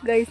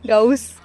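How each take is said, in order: First: गाइस said as plain guys. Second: गाउस said as gaus, with au; pronounced gaus. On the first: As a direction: say गाइस the usual way. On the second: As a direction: say गाउस, not गाइस. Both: Shown as a demonstration. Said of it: "गाइस नहीं गाउस".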